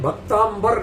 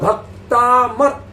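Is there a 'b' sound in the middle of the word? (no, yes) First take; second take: yes; no. First: It is said with an 'mb' sound in the middle. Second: It is said with a plain 'm' sound in the middle. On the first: The speaker calls it wrong. "अधिकांश लोग गलत पढ़ते हैं, भक्तांबर नहीं है" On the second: The speaker calls it right. "बड़ा बा है ही नहीं इसमें"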